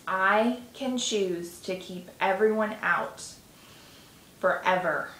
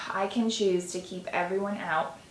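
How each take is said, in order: First: Slow and firm, stressing "forever"; slow, deliberate repeat. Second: Said in the usual way. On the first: Shown as a demonstration. Repeating the statement for the tapping listener, slower and firmer. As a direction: say "I can choose to keep everyone out" slowly, every word weighed. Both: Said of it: "I'm gonna repeat that".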